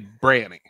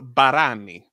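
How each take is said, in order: First: The first vowel is dropped, giving two syllables. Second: The name is said with three full syllables. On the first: The speaker calls it wrong. "you have mispronounced this your entire life" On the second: The speaker calls it right. "It's Barani"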